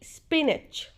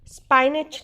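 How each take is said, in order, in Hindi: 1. पहला स्वर 'ih' जैसा सुनाई देता है। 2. पहला स्वर 'eye' जैसा सुनाई देता है। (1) "स्पाइनच नहीं स्पिनच" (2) "नहीं"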